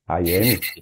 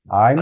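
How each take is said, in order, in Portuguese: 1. Fala-se duas palavras inteiras separadas. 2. As palavras se juntam numa sílaba curta só. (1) "aí fica muito brasileirado"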